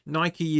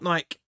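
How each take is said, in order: First: The word ends with a sounded vowel. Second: The word ends without a sounded vowel. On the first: The speaker calls it right. "is the correct pronunciation of it" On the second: The speaker calls it wrong. "So it's not"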